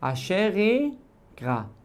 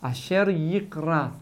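First: The two words run together, swallowing the y sound. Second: The y sound of the second word is clearly pronounced. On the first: The speaker calls it wrong. "מי שיחבר אותה ממש ביחד" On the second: The speaker calls it right. "לבטא את היוד"

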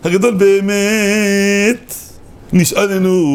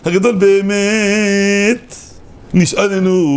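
First: The pause comes after the word be'emet. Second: The same.

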